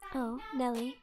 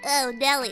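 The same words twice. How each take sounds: First: A soft, sultry voice that sounds feminine. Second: A cartoonish, bratty boy's voice.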